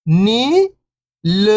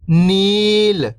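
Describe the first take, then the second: First: First syllable lifting, pause, second falling. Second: Whole word, level then falling at the end; syllables blended. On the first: Teacher breaking a word down for beginning readers, syllable by syllable. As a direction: sound out each syllable alone, long and separated. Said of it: "एक अक्षर का उच्चारण करके". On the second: Teacher showing beginners the joined word, syllables blended. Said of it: "तो मिलके बन जाएगा". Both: Shown as a demonstration.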